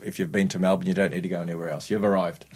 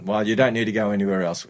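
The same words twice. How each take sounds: First: Much softer and fast, tossed off under the breath; quick quiet aside. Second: Said in the usual way. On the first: Acted. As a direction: rattle it off quietly like a punchline aside. Repeated Melbourne joke as aside.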